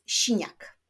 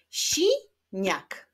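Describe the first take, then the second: First: Said in the usual way. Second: "Siniak" broken as si, niak, first beat high; split into syllables. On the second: Shown as a demonstration. Teacher clapping syllables of siniak, split into beats. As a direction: clap out "Siniak" in two separate beats. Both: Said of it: "Wyklaszczmy sylaby w tych wyrazach".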